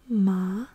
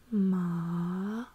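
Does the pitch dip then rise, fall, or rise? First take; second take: rise; dip then rise. First: The pitch rises through the syllable. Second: The pitch dips low, then rises again. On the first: It means numb. "you're gonna raise your pitch a little bit" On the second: It means horse. "lowering my voice first"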